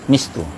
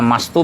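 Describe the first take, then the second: First: The first vowel is a close 'i' sound. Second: The first vowel is an open 'a' sound. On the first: "Bi kasril mim, ya, dengan kasrah mim" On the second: "Bifathil mim, ya, jadi bisa dibaca uh, bifathil mim dengan memfathahkan mim jadi mastu"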